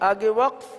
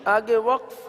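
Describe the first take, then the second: The two takes are said the same way.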